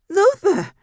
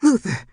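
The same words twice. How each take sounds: First: Very high, loud desperate scream of his name; frantic cry. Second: Much higher, louder frantic cry of his name; panicked scream. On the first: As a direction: shriek for her unmoving husband. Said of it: "no response from her husband". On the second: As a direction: scream for her husband in panic. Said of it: "Mama Ginger's panicked scream". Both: A narrator's reading.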